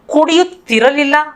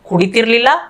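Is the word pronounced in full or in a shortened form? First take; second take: full; shortened. First: The word is pronounced in its full form. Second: The word is pronounced in a shortened, local form.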